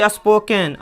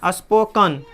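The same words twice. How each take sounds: First: स्पोकन as "as-poh-ken", clear "e"; slow spelling reading of स्पोकन with "ken"; mispronunciation demo. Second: स्पोकन as "as-POH-kun"; correct pronunciation. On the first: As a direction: say स्पोकन wrongly, ending "-ken". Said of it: "स्पोकन नहीं होता". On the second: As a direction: say स्पोकन with schwa before n. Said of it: "स्पोकन होता है". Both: Shown as a demonstration.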